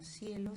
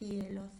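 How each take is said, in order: First: The first consonant is an s sound. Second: The first consonant is a th sound. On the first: This is the regional norm. "el ceseo, más que un problema, es una característica de nuestra lengua regional" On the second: Some children have this pronunciation difficulty. "hay niños que pueden pronunciarlas con cefeo"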